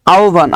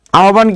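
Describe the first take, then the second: First: আহ্বান said as "au-van"; correct pronunciation. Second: Said in the usual way. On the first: Shown as a demonstration. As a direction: glide from a to u in আহ্বান, then "van". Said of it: "আহ্বান কি হবে বলেন তো". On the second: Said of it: "কি হবে বলেন তো".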